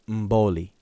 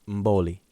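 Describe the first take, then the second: Both takes have the same delivery.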